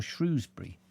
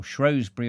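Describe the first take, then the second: First: Shrewsbury with first syllable like "shrews"; shrew pronunciation. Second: Shrewsbury with first syllable rhyming with "shows"; long-o pronunciation. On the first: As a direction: say Shrewsbury as "SHROOZ-bree". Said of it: "it's got nothing to do with shrews". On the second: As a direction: say Shrewsbury as "SHROHZ-bree". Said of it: "Shrewsbury is the correct way of saying it". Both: Shown as a demonstration.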